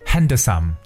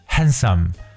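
First: The d sound is pronounced in the word. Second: The d sound is silent in the word. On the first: The speaker calls it wrong. "千万不要读成handsome，这是错误的读法" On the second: The speaker calls it right. "我们这个单词读的是handsome"

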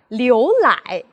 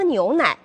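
First: The n and l sounds are merged together. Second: The n and l sounds are kept distinct.

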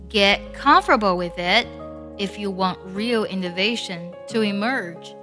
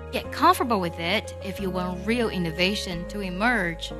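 First: The sentence is read slowly. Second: The sentence is read at normal speed.

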